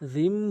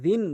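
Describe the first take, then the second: First: The word ends with an m sound. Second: The word ends with an n sound. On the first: The speaker calls it right. "জিম বলতে হবে" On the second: The speaker calls it wrong. "কখনো জিন বলবেন না"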